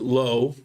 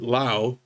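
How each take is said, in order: First: The vowel sounds like the one in 'go'. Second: The vowel sounds like the one in 'how'. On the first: "you probably pronounce it low" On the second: "I pronounce it Lao"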